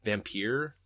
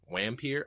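First: "Vampir" with a V and an ending like "peer"; attempted German pronunciation. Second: "Wampir" opening with an English W sound; swapped V and W. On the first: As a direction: try "Vampir" in German, stressed toward "peer". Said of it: "what's vampire in German?". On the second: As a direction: say "Wampir" with W in place of V. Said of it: "the V's and W's are swat". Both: Shown as a demonstration.

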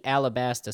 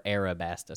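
First: "Alabasta" with an L, al-uh-BAS-tuh; L pronunciation. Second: "Arabasta" with an R, air-uh-BAS-tuh; R pronunciation. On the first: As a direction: say an L in the second syllable of "Alabasta". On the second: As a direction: swap the L for an R in "Arabasta". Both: Shown as a demonstration. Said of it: "you know, translation stuff".

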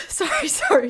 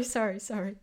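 First: High, loud flustered sorry; flustered apology. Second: Said in the usual way. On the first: Real, not acted. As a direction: blurt the apology right after sneezing. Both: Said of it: "Oh, I'm sorry".

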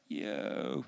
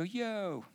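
First: Much lower, drawn-out yo; slow stoned yo. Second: Higher, softer yo; quick casual yo. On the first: Shown as a demonstration. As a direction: stretch the yo out, dazed. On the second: Retold or imitated. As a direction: toss off a casual yo. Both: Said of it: "So kinda say it slowly".

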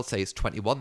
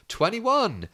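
First: Said in the usual way. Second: High, called-out bingo number; calling out the number. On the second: Retold or imitated. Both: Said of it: "They go".

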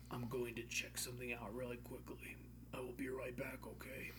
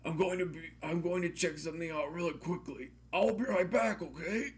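First: Soft whispered line. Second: Called out. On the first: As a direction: hush it under your breath. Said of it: "he said, I called out". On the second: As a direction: call across the room. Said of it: "I called out". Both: Acted.

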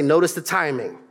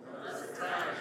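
First: Said in the usual way. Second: Hushed whisper, no voice; breathy stage whisper to the crowd. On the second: Shown as a demonstration. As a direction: whisper it like a secret. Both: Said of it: "Can I get somebody to say".

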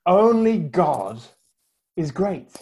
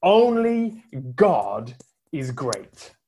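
First: Slow, with ONLY drawn out; slow solemn quote, Only held long; solemn repeat. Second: Slow, weighty quoting of a preacher; slow solemn quote; solemn proclamation. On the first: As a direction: lean on Only, then let is great settle. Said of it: "in my worst French accent". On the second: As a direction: let each word land slowly. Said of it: "started his sermon with these words". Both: Retold or imitated.

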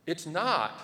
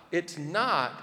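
No difference in how they are said.

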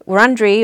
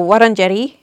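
First: Said in the usual way. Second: "Wurundjeri" as "WOT-un-jeti"; traditional pronunciation. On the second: Shown as a demonstration. Guest offers the corrected name after the usual, traditional way. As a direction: say "Wurundjeri" with opening "wot" and tapped r. Gives two versions of one name.

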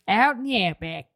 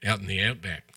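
First: Lightly imitating the Australian accent; half-hearted Australian accent; Australian echo. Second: A light put-on Australian accent; playful hint of Australian; mock Australian. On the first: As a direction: say it back in a mock Aussie twang. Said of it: "as the expert on Australian accents". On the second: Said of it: "That's pretty good, [name]".

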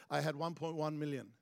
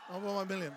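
First: Said in the usual way. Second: A mild triumphant shout; excited. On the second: Real, not acted. Pastor telling the church the pledge total, exultant. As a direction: call the number out in triumph.

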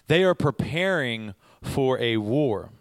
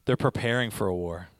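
First: Slow, with "are" pressed hard; stress on are. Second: Said in the usual way. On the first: Shown as a demonstration. Preacher insisting to listeners that soldiers are preparing, stressing "are". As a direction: lean on "are" and slow the whole line down.

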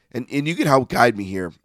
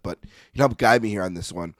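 First: Voice giving out. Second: Said in the usual way. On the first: Real, not acted. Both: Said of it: "I'm losing my voice a little bit".

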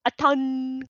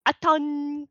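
First: "Aton" with the N pushed back in the throat. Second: "Aton" opened with a hard clanked glottal stop; clanked glottal start. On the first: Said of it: "all the way at the back of your throat". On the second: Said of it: "a clank sound in there". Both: Shown as a demonstration.

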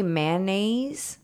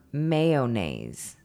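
First: "mayonnaise" said as MAN-naze, no O; "mayonnaise" squeezed into two drawn-out syllables, MAN-naze; two-syllable pronunciation. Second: "mayonnaise" said as MAY-oh-naze; "mayonnaise" slow and loud with a full O, MAY-oh-naze; three-syllable pronunciation. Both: Shown as a demonstration. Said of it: "Do you say mayonnaise or mayonnaise".

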